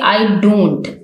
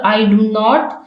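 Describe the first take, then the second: First: It is contracted into two weak, unstressed words. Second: Three separate full words are said.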